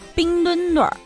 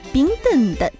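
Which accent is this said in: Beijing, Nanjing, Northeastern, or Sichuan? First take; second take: Beijing; Nanjing. First: It is said in a Beijing accent. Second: It is said in a Nanjing accent. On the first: The Winter Olympics are held in Beijing. "北京人不服了" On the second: The mascot's designer is from Nanjing. "一位南京群众走来了"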